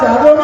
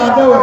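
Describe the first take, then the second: First: The name begins with a j sound. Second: The name begins with a y sound. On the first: The speaker calls it wrong. "जादव नहीं है" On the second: The speaker calls it right. "यादव है"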